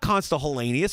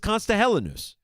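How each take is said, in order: First: The surname has four syllables, ending 'nee-us'. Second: The surname has three syllables, ending 'nus'. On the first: The speaker calls it wrong. "It's not Consta Hellenius" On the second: The speaker calls it right. "It's Consta Hellenus"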